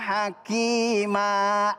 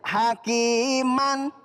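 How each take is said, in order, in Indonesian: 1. Kata itu berakhir dengan a panjang. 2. Kata itu berakhir dengan bunyi n. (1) "dibaca mad iwad" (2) "maka di akhir kalimat nggak boleh dibaca tan"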